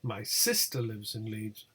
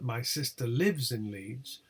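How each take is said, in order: First: The intonation contour is strongly marked. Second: The intonation contour is strongly marked.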